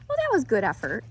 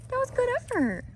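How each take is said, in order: First: Said in the usual way. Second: Talking to a horse. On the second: Real, not acted. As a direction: coo praise at the horse. Praising the horse.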